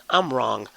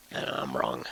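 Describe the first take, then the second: First: Said in the usual way. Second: Laughing admission. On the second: Real, not acted. Vlogger admitting to viewers he is wrong, laughing it off. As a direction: own up under a laugh.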